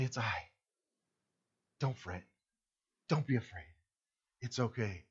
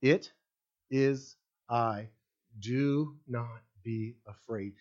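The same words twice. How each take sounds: First: Much softer, lower tender reassurance; comforting. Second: Slow, quieter solemn words of Jesus; solemn quote. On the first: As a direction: hush it like comforting someone in a storm. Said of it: "extremely comforting words". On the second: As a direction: lay each word down slowly and gravely. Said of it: "exact words is what Jesus said". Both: Retold or imitated.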